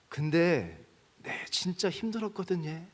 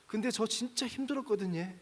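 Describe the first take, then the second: First: Put-on slow, a touch tearful, as the old son; mild tearful confession, slowed down; retold crying. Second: Higher, softer, a hint of tears; lightly voiced choked-up son, pitched up; retold crying, higher. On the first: Old son tells his father's photo, mildly tearful. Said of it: "그러면서 막 우는 거예요". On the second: Preacher retells the son's words to his father, higher and mildly tearful. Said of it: "이러면서 막 울어요".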